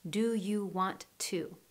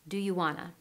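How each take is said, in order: First: Each word is said clearly and separately. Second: Want and to blend into one word. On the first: The speaker calls it wrong. "native speakers don't clearly say every word. It sounds robotic" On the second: The speaker calls it right. "we blend or connect the sounds between the words"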